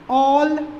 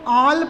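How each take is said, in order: First: The vowel is a rounded 'aw' sound. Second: The vowel is an open unrounded 'ah' sound. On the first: The speaker calls it right. "इसको हम लोगों को पढ़ना है औ" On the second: The speaker calls it wrong. "Maximum लोग इसको आल पढ़ देते हैं"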